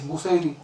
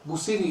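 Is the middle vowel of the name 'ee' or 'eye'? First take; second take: eye; ee. First: The middle vowel sounds like 'eye'. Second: The middle vowel sounds like 'ee'. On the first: This is the original form of the name. The speaker calls it right. "The correct way is Busairi" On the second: This is how most people say it. The speaker calls it wrong. "a common way of pronouncing it"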